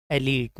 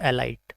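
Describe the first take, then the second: First: Elite said as "e-leet"; long ee in the second syllable of Elite; correct pronunciation. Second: Elite wrongly said as "e-light"; mispronunciation demo. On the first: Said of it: "right pronunciation is elite". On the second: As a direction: rhyme the end of elite with "light". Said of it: "not elite". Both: Shown as a demonstration.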